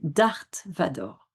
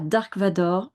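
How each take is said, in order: First: The first word ends with a th sound. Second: The first word ends with a k sound. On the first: The speaker calls it right. "c'est Darth Vador" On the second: The speaker calls it wrong. "ce n'est pas Dark Vador"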